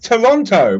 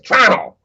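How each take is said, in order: First: All syllables of the name are clearly pronounced. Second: The name is squeezed, with syllables dropped. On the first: "people get mad when I pronounce it properly" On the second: "they lose half the syllables and just call it trow"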